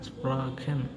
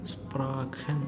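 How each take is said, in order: Both takes have the same delivery.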